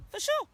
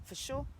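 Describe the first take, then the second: First: "For sure" jumped high with a rising end; high playful repeat. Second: Said in the usual way. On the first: Real, not acted. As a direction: fling "For sure" up high, teasing. Repeated phrase, pitched up.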